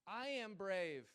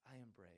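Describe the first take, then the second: First: Loud, high, very slow "I am brave"; dad's slow affirmation. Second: Daughter repeating. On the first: Shown as a demonstration. Father leading bedtime affirmations, slow and loud. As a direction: spell it out slowly for her to copy. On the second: Retold or imitated. Daughter repeating after dad at bedtime, quiet. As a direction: say it back softly like a small child. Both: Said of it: "she repeats after me".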